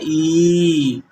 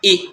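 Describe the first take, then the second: First: The vowel is drawn out and long. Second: The vowel is said quickly and short. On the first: "बड़ी ई का जहाँ पे बात आती है तो उसका उच्चारण होता है" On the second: "उसका उच्चारण जल्दी होता है"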